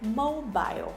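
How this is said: The word is said with a British pronunciation. "So she said mobile"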